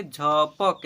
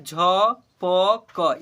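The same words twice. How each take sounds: First: "झपक" joined as झ-पक; blended into one word. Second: "झपक" as "झ, प, क", very slow with gaps; spelled letter by letter. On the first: Teacher showing how it is read, blended. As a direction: run "झपक" together, closing on क. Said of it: "इसे पढ़ेंगे". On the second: Teacher asking what it is, spelled out. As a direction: separate each letter of "झपक". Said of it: "इसे पढ़ेंगे झपक". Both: Shown as a demonstration.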